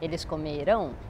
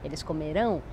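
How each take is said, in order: First: The stress is on the last syllable. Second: The same.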